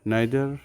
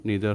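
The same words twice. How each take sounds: First: Neither said "naither" with ai; British neither, clear. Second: Neither said "neether" with ee; American neither. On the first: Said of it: "হচ্ছে British উচ্চারণ". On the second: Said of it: "হচ্ছে American উচ্চারণ". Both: Shown as a demonstration.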